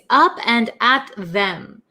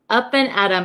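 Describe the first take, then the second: First: The last word is said in full as 'them'. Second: The last word is reduced to 'em' with a flapped T. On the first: "the actual word is up and at them" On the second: "we say it in America, ... this T sound becomes a flap T"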